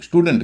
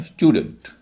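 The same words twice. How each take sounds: First: "स्टूडेंट" with plain oo, STOO-dent; "स्टूडेंट" mispronounced as "stoodant"; common mispronunciation. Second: "स्टूडेंट" with a y-glide, STYOO-dunt; "स्टूडेंट" said as "styudant"; correct pronunciation. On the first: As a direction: drop the y-glide from "स्टूडेंट". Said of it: "इसे लोग स्टूडेंट कहते हैं". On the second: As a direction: slip a y after the t in "स्टूडेंट". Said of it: "लेकिन इसका उच्चारण स्टूडेंट". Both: Shown as a demonstration.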